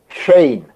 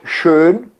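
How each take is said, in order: First: The vowel is stretched out. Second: The vowel is short and plain. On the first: This is how it is said in the south. "En el sur ... también se estira la o u" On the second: This is the usual dialect form. "el dialecto es schön"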